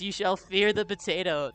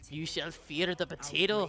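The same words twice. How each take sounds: First: It is said in the speaker's ordinary accent. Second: It is said in a put-on Irish-Scottish accent.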